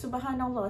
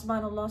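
First: The phrase is said slowly and clearly. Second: The phrase is said fast and rushed. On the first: The speaker calls it right. "it doesn't sound like subhanallah" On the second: The speaker calls it wrong. "you read too fast lah Umi"

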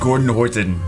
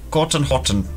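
First: It is said in the speaker's normal accent. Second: It is said in a put-on foreign accent.

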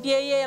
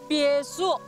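First: The second syllable is pronounced ye. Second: The second syllable is pronounced shu. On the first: The speaker calls it wrong. "从现在开始不能再念别野了" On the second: The speaker calls it right. "要念别墅"

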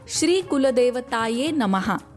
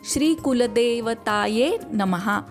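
First: The syllable 'de' is said short. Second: The syllable 'de' is drawn out longer.

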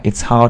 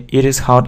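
First: It is said as one contracted word. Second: It is said as two separate full words. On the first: "а it's hot" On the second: "не it is hot"

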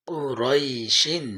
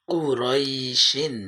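Both takes have the same delivery.

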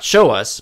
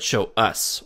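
First: The stress falls on the word show. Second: The stress falls on the word us. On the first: The speaker calls it wrong. "So not show us" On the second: The speaker calls it right. "we put the emphasis on us"

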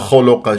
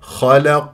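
First: The vowels are said with rounded lips. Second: The vowels are said with unrounded lips. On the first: The speaker calls it wrong. "ولا أقول خلق" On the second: The speaker calls it right. "تفخيم ترقيق تفخيم من غير تكوير"

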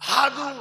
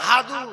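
No difference in how they are said.

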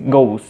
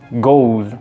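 First: The word is quick and ends in an s sound. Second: The word ends in a buzzing z sound. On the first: "si lo dices rápido, pues se pierde el sonido, entonces queda como simplemente una S" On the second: "como si tuviera una Z al final"

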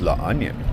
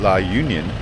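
First: The second word begins with an 'uh' sound. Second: The second word begins with a 'you' sound. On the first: The speaker calls it right. "it's La Onion" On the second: The speaker calls it wrong. "that's how I would pronounce it"

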